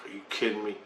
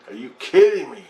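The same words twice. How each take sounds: First: Soft, under the breath; muttered disbelief. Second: KIDDING punched louder with a pitch swoop; emphatic disbelief. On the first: Answering the urge to go to the river, muttered disbelief. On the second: Answering the urge to go to the river, KIDDING stressed in disbelief. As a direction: hit "kidding" hard, rising then falling. Repeats disbelief with more force. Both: Retold or imitated.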